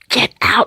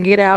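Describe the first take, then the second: First: It is said in a creepy Amityville Horror voice. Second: It is said in a normal speaking voice.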